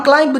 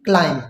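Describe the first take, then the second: First: क्लाइंब with the final b sounded; wrong pronunciation. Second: क्लाइंब ending on m, b silent; correct pronunciation. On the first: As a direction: say क्लाइंब ending on a b. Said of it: "हम क्लाइंब नहीं बोलेंगे". (क्लाइंब, बी बोलकर ग़लत उच्चारण) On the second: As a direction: say क्लाइंब stopping on the m. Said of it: "इसलिए हम इसको बोलेंगे". (क्लाइंब, एम पर रुकें, बी silent) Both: Shown as a demonstration.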